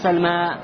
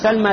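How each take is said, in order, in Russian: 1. Конечная гласная — долгая. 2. Конечная гласная — краткая. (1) "не говоришь сальма" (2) "а говоришь сальма лейла"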